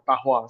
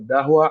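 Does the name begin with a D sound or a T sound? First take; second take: T sound; D sound. First: The name begins with a voiceless T sound. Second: The name begins with a voiced D sound. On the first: The speaker calls it right. "the right pronunciation-nya adalah uh, uh, Tahwa sebenarnya. D-nya itu dibaca T" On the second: The speaker calls it wrong. "biasanya tuh orang suka salah sebut"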